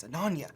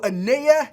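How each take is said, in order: First: "Ananya" with the n, a-NUN-ya; "Ananya" nasal n before ya, three syllables; corrected name. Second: "Anaya" said without the n, a-NAI-ya; "Anaya" as three syllables, no second n; mispronounced name. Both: Real, not acted. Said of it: "not Anaya".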